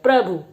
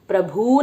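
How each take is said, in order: First: The final u vowel is said short and quick. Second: The final u vowel is drawn out long. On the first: The speaker calls it right. "ये प्रभु होता है" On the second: The speaker calls it wrong. "प्रभु नहीं बोला जाता है"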